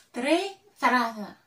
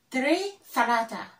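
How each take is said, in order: Both takes have the same delivery.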